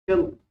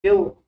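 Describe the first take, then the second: First: Said in the usual way. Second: Kill said loud and high, the mistaken way; teacher mocks kill as students misread it; wrong pronunciation shown. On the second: Shown as a demonstration. معلم يقلد اللفظ الخاطئ لكلمة kill بصوت عال. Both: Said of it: "not kill".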